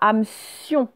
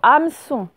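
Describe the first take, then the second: First: The ending has a 'y' glide: 'sion'. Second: The ending is a plain 'son' sound. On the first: The speaker calls it wrong. "Ce n'est pas hameçon. Il n'y a pas le i" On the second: The speaker calls it right. "C'est juste le se tout seul avec le son on après"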